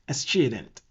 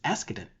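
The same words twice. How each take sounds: First: The word is said with an Italian-style reading. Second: The word is said with its usual English sounds. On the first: "if it's um Italian, then it's very ash word" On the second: "the real pronunciation is accident"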